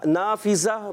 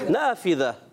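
First: The middle consonant is a 'z' sound. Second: The middle consonant is a soft 'th' sound. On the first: The speaker calls it wrong. "زا زال کو، اور اسی طرح نافذہ بول دیا، یہ بھی غلط ہو جائے گا" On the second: The speaker calls it right. "فا کی ادائیگی، ذال کی ادائیگی"

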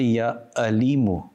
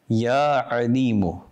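First: Alimu begins with a plain glottal stop. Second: Alimu begins with a deep throat consonant. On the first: The speaker calls it wrong. "Do not say Ya Alimu with a Hamza. This meaning is completely different" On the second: The speaker calls it right. "With an Ayn. The makhraj of the Ayn is from the center of the throat"

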